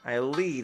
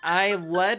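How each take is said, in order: First: The word 'lead' is said to rhyme with 'bead'. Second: The word 'lead' is said to rhyme with 'bed'. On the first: It means guiding someone somewhere. The speaker calls it right. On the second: It sounds like the metal. The speaker calls it wrong.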